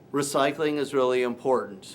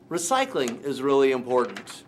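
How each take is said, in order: First: The voice is flat, monotone and lifeless. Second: The voice is lively with varied pitch. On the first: The speaker calls it wrong. "they sound kind of monotone, sound kind of dead" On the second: The speaker calls it right. "I need you to sound a little bit more lively"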